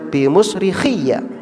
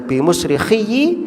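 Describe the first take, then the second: First: The final ya carries an a vowel. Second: The final ya carries an i vowel. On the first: "boleh dinasobkan" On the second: "Boleh dikasroh ya-nya"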